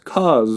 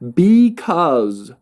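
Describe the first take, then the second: First: A shortened form is said with one syllable. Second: The full word is said with two syllables. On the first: "one syllable" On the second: "two syllables"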